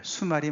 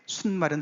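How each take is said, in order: First: No n sound comes before the m. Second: An n sound comes before the m. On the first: The speaker calls it right. "수말이 맞아요" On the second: The speaker calls it wrong. "순말은 틀려요"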